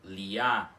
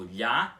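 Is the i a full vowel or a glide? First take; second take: full vowel; glide. First: The i is a full separate vowel. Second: The i is a quick palatal glide. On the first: The speaker calls it wrong. "em vez de você pronunciar" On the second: The speaker calls it right. "como se ela tivesse o som do nosso L H"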